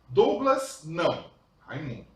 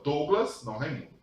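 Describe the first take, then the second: First: There is a pause after 'não'. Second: There is no pause after 'não'. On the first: Douglas is told no, and the answer is Raimundo. "só de uma coisa de mudar a posição da vírgula" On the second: The name should be Douglas, not Raimundo. "a vírgula fica antes ali do não Raimundo"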